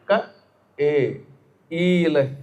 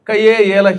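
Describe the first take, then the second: First: The syllables are kept separate without merging. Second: The syllables are run together into one glide. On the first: The speaker calls it right. "కా తర్వాత కలిపేయకుండా ఏ అనాలి" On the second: The speaker calls it wrong. "కయ్యే ఏల కిరిమని చదివేశాడు, దానివల్ల వాడు కయ్యలో పడతాడు"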